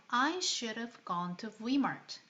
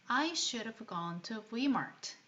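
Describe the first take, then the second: The two takes are said the same way.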